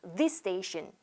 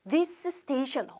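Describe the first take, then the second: First: The s sound is pronounced only once, linked. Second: The s sound is pronounced twice, separately. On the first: The speaker calls it right. "한 번만 발음해 볼게요" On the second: The speaker calls it wrong. "어려워요"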